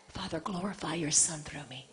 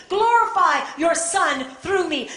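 First: Low, very soft surrender; hushed prayer. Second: Slow, loud, high plea to God; fervent prayer. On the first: Preacher yielding to the Father despite the burden, hushed prayer. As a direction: drop to an intimate, quiet plea to God. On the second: Preacher calling on God to glorify the Son, fervent prayer. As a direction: cry it out as an impassioned pulpit prayer. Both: Acted.

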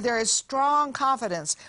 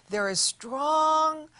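First: Said in the usual way. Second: "strong" stretched out slow and pitched higher; stress on strong. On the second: Shown as a demonstration. Preacher reading scripture, stretching out the word "strong". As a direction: lean hard on "strong", drawing it out.

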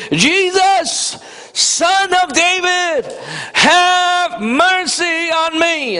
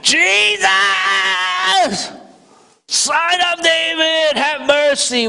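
First: High, slow pleading cry. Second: High, slow desperate cry to Jesus; crying out louder. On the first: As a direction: call out to Jesus, drawn out and begging. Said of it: "he began to cry out and say". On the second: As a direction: plead at full force, stretched out. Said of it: "he cried out all the more". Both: Retold or imitated.

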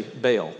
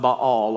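First: Baal said as "bale"; Baal with a long "ay" vowel, one syllable; everyday Baal. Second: Baal said as "bah-AHL"; Baal with a long open "ah", stress on the second syllable; two-syllable Baal. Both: Shown as a demonstration. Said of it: "or as we say".

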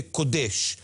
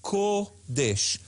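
First: "Kodesh" stressed on DESH, the first syllable short; "Kodesh" run together with the accent at the end; mistaken end stress. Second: "Kodesh" with a long, stressed KO, then DESH; slow KOO... desh for "Kodesh"; stress on first syllable. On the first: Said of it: "the way that many people say". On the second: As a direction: linger on the O of "Kodesh", syllables apart. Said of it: "You just linger longer". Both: Shown as a demonstration.

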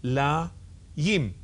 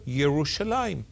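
First: Ye-ru-sha-la-yim, each syllable slow and separate; staccato. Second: Said in the usual way. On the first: Shown as a demonstration. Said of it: "read that syllable by syllable". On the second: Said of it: "And together".

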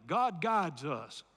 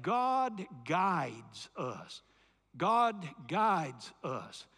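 First: God guides us, slowed for echo; slow, low God guides us; slow call to repeat. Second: God guides us, slow and weighty; drawn-out God guides us; slow emphatic phrase. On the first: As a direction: lead the congregation in the words. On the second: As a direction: spell it out slowly for the congregation to repeat. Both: Shown as a demonstration. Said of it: "Say that with me".

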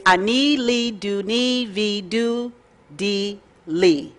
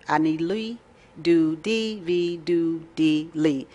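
First: Slow, careful Hebrew, each syllable "Ani li do ni vi do di li" drawn out. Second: "Ani li do di vi do di li" softer and slower still, almost reverent; even slower, softer Hebrew. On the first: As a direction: spell out "Ani li do ni vi do di li" slowly for learners. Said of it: "I'm gonna say it very, very slow". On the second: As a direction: savour "Ani li do di vi do di li" syllable by syllable, quietly. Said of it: "That's as fast as I can say it". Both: Shown as a demonstration.

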